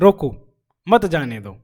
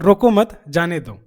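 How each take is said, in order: First: There is a pause after the first word. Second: There is a pause after the second word. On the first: "रोको के आगे comma लिखा गया है" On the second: "रोको मत के आगे जो है कॉमा लगा हुआ है"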